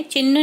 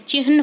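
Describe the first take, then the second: First: चिन्ह said as "chinn", with a doubled n and no h sound; the usual spoken "chinn" for चिन्ह, with the h dropped; common wrong pronunciation. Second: चिन्ह said as "chihn", with the h breathed before the n; correct pronunciation. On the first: Teacher to students, showing the common wrong way, plain voice. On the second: Teacher to students, showing the correct form, careful. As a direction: say चिन्ह with a clear h before the n: "chi-h-n". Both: Shown as a demonstration. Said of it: "हमेशा चिन्ह बोलते हैं but चिन्ह नहीं होता है".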